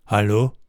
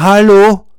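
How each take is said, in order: First: Said in the usual way. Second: „Hallo?“ called much higher and louder; calling out loud. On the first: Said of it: "und sagt". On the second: A narrator's reading. Lars calling toward the half-open door: loud high call. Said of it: "Lars ruft wieder".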